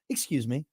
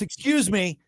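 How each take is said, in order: First: It is said in a mild, polite tone. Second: It is said in a sharp, aggressive tone. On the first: "It's not excuse me" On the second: "a very aggressive. ... No, it's excuse me"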